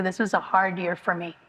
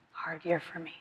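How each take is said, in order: First: Said in the usual way. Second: Much softer, drained repeat; near whisper echo. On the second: Real, not acted. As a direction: let it fade almost to nothing. Near-silent echo of the line before.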